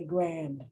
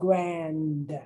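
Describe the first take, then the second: First: The final D sound is dropped. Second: The final D sound is clearly pronounced. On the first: This is the everyday way of saying it. "But otherwise, I say grand" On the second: The word is being emphasized. "unless I really want to emphasize these two words"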